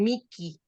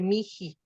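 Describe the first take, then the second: First: The middle consonant is a hard k sound. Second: The middle consonant is a breathy h sound. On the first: This is the Italian, ecclesiastical way of saying it. "se alcanza a escuchar que luego dicen Miki" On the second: The h between vowels is aspirated to ease pronunciation. "en lugar de Miji"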